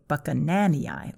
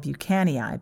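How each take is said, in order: First: The name is said with the 'nan' syllable. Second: The name is said without the 'nan' syllable. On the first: The speaker calls it right. "but it's actually Buchananii, like Buchanan II" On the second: The speaker calls it wrong. "that I call Buchanii"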